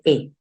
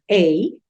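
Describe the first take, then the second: First: The article is said with a short reduced vowel. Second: The article is said with a full 'ay' vowel. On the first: People say it this way for convenience. "la gente dice e" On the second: This is the form taught in the module. "el sonido abierto de la a"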